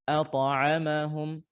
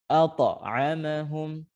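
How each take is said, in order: No difference in how they are said.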